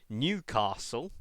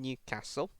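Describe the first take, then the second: First: It is said with a southern English pronunciation. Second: It is said with a northern English pronunciation.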